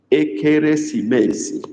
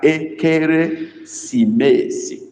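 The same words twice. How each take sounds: First: Said in the usual way. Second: Ekeresimesi said slowly, syllable by syllable; slow Igbo word. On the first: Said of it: "That's how we write". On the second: Shown as a demonstration. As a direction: spell out Ekeresimesi slowly, each syllable clear. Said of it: "Write that".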